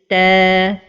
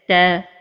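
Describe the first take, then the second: First: The vowel is held long. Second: The vowel is cut short. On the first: The speaker calls it right. "the right pronunciation is" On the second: The speaker calls it wrong. "don't give the right time to the lengthening"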